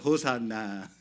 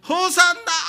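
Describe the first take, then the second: First: It is said quietly, without much force. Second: It is shouted loudly with excitement.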